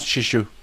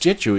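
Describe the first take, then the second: First: The name begins with a SH sound. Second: The name begins with a J sound. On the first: The speaker calls it wrong. "It's not Shishu" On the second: The speaker calls it right. "So it's it's Jeju"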